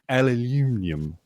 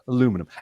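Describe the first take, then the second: First: It is said with a British pronunciation. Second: It is said with an American pronunciation.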